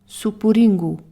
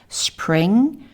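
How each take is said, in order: First: Vowels are inserted between and after the consonants. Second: The word starts with a consonant cluster. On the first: "may simplify English consonant clusters" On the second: "English consonant clusters like spring"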